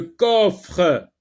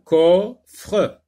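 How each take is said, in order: First: Said in the usual way. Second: "coffre" broken in two, louder, with a separate "fre"; split into syllables. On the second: Shown as a demonstration. Teacher counting syllables for learners, "coffre" in two loud beats. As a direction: pause inside "coffre" before the final syllable. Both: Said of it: "Donc deux syllabes".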